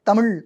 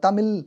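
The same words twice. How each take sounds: First: The final consonant is a retroflex zh sound. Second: The final consonant is a plain l sound. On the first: The speaker calls it right. "ழகரத்த ... ஒழுங்கா சொல்ல சொல்லுங்க" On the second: The speaker calls it wrong. "தமிழ் அப்படின்னு சொல்லாம"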